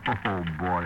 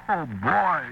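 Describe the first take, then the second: First: Said in the usual way. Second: Put-on "Oh, boy" pitched much higher, gleeful; elated cry of "Oh, boy"; overjoyed oh boy. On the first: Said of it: "I said". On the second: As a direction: burst out with relief and delight. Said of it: "I practically kissed the thing".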